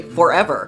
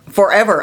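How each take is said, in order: First: Said in the usual way. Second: Forever said louder with a falling close; emphatic forever. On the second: Shown as a demonstration. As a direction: stress Forever, loud and final. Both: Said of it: "I say".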